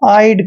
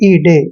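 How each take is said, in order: First: The ending sounds like 'aid'. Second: The ending sounds like 'ee-day'. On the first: The speaker calls it right. "आपने इसका उच्चारण आइड करना है" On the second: The speaker calls it wrong. "ना कि ईडे"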